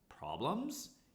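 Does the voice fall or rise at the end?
rise. The pitch rises at the end. It asks whether there is a problem.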